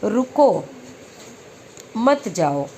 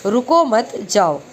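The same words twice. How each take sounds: First: रुको, long pause, then मत जाओ together; pause after रुको. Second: रुको मत together, then जाओ apart; slowly, with the break moved to after मत; pause after मत. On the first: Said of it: "यहाँ लगा है नहीं के बाद". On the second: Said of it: "हम यहाँ लगा दें". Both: Shown as a demonstration.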